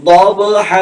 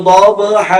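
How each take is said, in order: No difference in how they are said.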